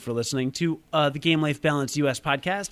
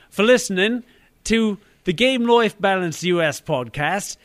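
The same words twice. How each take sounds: First: It is said in an American accent. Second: It is said in a British accent.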